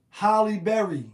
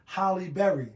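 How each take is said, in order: First: "Halle Berry" called out loud, stress on "Halle"; punning name call. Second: "Halle Berry" said plainly, stress on "Berry"; "Halle Berry" repeated. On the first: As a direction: announce "Halle Berry" as a joke. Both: Shown as a demonstration. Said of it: "not the actress Halle Berry".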